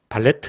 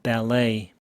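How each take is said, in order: First: A t sound is pronounced at the end. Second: No t sound is pronounced at the end. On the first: The speaker calls it wrong. "발레트 이러면 완전 꽝이고요" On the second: The speaker calls it right. "t는 발음이 없고 e의 강세가 있습니다"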